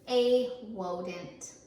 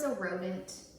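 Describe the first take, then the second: First: The word starts with a W sound. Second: The word starts with a real R sound.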